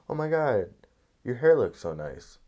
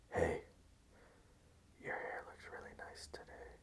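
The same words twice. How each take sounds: First: Bright-pitched, friendly out-loud compliment; casual admiring exclamation; not creepy compliment. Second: Hushed, voiceless creep compliment; creepy whisper. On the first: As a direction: gush it openly, higher and louder. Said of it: "It's not creepy at all". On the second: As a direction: whisper it close into their ear. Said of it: "Not Creepy Unless You Whisper It". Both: Acted.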